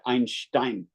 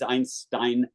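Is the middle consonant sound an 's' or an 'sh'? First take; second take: sh; s. First: The middle consonant is an sh sound. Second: The middle consonant is a plain s sound. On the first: The speaker calls it wrong. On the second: The speaker calls it right. "spelling it with a with a samach"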